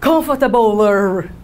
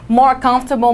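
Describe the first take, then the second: First: "Comfortabler" slow and low, with a drawn-out R ending; mock wrong form "Comfortabler", ending in a long American R; tacked-on R ending. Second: Said in the usual way. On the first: Shown as a demonstration. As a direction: drag the clumsy "-ler" at the end of "Comfortabler". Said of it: "se eu fosse falar essa palavra aqui com R no final". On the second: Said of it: "botar um more na frente deles".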